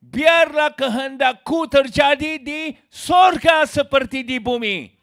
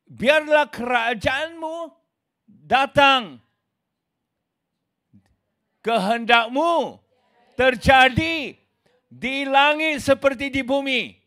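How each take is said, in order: First: Slow shouted demand, turning the prayer around; mock religious demand. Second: Slow, solemn prayer voice, each phrase set apart. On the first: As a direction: boom it out like a self-willed religious man. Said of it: "Tetapi agamawi". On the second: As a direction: pray it slowly and reverently, as it is meant. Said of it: "langsung dikatakan". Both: Shown as a demonstration.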